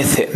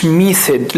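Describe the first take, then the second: First: "method" with a short open e, as in meth; open E vowel. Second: "method" as mee-thod, with a long ee; wrong long vowel. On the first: Teacher corrects the vowel for students, short e in "method". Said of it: "لا قلنا method". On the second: Teacher shows what was not said, "method" with ee. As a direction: stretch the first vowel of "method" into ee. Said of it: "ما قلناش method". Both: Shown as a demonstration.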